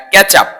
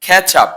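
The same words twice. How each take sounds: First: ক্যাচ আপ run together with an unaspirated k; common mispronunciation. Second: ক্যাচ আপ with a breath-puffed k, "khech-ap"; teacher's careful ক্যাচ আপ, airy first sound; correct pronunciation. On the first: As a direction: say ক্যাচ আপ as one word, like "ketchup". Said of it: "আমরা বলি". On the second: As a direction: aspirate the k and model ক্যাচ আপ clearly. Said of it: "এটা উচ্চারণ হবে". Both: Shown as a demonstration.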